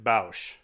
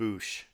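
First: The vowel sounds like 'ow' as in 'house'. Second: The vowel sounds like 'oo' as in 'douche'. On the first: This is the older, habitual way of saying it. "I always pronounced it Bausch" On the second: This is how younger fans say it. "all the young kids nowadays call it Boosh, which sounds too much like douche"

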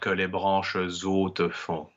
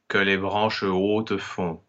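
First: A z sound links into the following word. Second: No z sound links into the following word. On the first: The speaker calls it wrong. "and not que les branches hautes font" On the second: The speaker calls it right. "we have que les branches hautes font"

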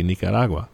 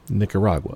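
First: The name has a Spanish pronunciation. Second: The name has an American English pronunciation. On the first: "in Spanish, this will be Nicaragua" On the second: "Normal kind of American pronunciation"

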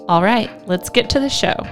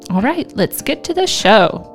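First: It is said with calmer, toned-down energy. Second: It is said with excited, high energy.

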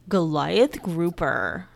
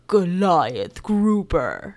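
First: It is said in a plain voice. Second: It is said in a big, dramatic voice.

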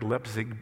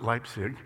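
First: It is said the way the spelling suggests. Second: It is said the way locals say it. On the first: This is how the name looks when read. "It looks like Leipzig" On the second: This is how the people there say the name. "but they pronounce it Leipzig"

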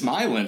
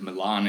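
First: The name is pronounced the local Michigan way. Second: The name is pronounced the Italian way. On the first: It refers to the town in Michigan. "We have Milan. So that's just how you say it" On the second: It refers to the city in Italy. "you might have heard of Milan in Italy"

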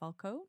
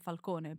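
First: The name is said the American way. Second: The name is said the non-American way. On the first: "in America you say Falcone" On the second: "I would say Falcone"

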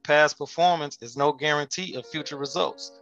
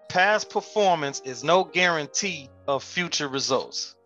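First: It is said in a calm, plain way. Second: It is said with more power and force.

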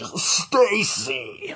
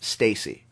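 First: It is said in a hyped announcer voice. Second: It is said in a normal speaking voice.

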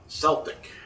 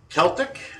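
First: The word begins with a soft S sound. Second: The word begins with a hard K sound. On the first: It refers to the basketball players. The speaker calls it wrong. "not Celtic" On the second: It refers to the people of Ireland. The speaker calls it right. "the proper pronunciation is Celtic"

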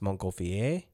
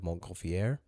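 First: The name is said with a French-style pronunciation. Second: The name is said with an English-style pronunciation. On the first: The speaker calls it right. "I think it's pronounced Montgolfier" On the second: The speaker calls it wrong. "instead of Montgolfier"

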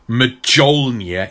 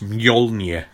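First: The name begins with a hard J sound. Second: The name begins with a soft Y sound. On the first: The speaker calls it wrong. "Not many hard J's. It's not like Mjolnir" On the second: The speaker calls it right. "it's Mjolnir"

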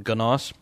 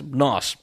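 First: The word starts with a hard G sound. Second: The word starts with an N sound. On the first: The speaker calls it wrong. "I was pronouncing it wrong. I was always calling them GNOS" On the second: The speaker calls it right. "But the G is silent"

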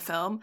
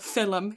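First: The word is said in the speaker's plain accent. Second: The word is said in an Irish accent.

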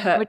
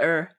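First: The word begins with an audible h sound. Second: The word begins directly with the vowel. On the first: This is how Australians say the start of herb. "we say the her" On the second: This is how Americans say the start of herb. "not the er"

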